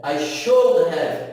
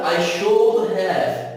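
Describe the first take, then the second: First: Every word is said fully and separately. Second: Every word is said fully and separately.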